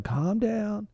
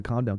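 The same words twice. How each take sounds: First: High, sing-song calm down; mock soothing banker. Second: Said in the usual way. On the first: Bank telling frightened customers to settle, mock soothing. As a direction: coo it at the panicked public.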